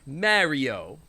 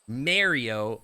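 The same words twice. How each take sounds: First: It is said in a New York accent. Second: It is said in a Canadian accent. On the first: "they say it like a New Yorker" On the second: "like a Canadian because that's my accent of English"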